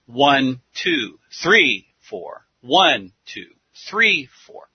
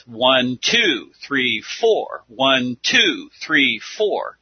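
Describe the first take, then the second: First: Counting with the beat hit on "one" and "three"; stress on one and three. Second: Counting with the beat hit on "two" and "four"; stress on two and four. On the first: Teacher counting a gospel beat with the accent on "one" and "three". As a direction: lean on "one" and "three" and let "two" and "four" go light. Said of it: "But on the first and the third measure". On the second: Teacher counting a rock beat with the accent on "two" and "four". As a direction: tap out "two" and "four" harder than "one" and "three". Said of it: "the emphasis is on the second and the fourth".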